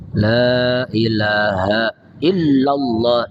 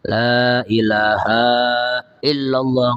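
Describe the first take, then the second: First: The 'ha' vowel is kept short. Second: The 'ha' vowel is stretched out long. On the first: The speaker calls it right. "Haknya jangan panjang" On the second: The speaker calls it wrong. "Itu datang dari Allah kita manjang-manjangin"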